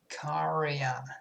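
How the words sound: It is said with an English accent. "a native comes here and they go karja"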